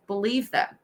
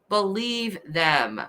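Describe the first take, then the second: First: Said in the usual way. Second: "Believe them" said slowly, each word weighted; slow emphasis. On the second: Shown as a demonstration. Repeating the killer's two words, slow and stressed. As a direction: let "Believe them" land slowly and heavily. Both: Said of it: "Two words".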